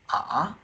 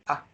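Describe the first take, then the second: First: It moves upward from one pitch to another. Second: It is said lightly, with a neutral tone. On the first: "the second tone from here to here"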